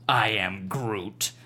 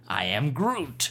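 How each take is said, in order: First: The voice sounds angry and harsh. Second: The voice sounds happy and bright. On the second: "All right, happy"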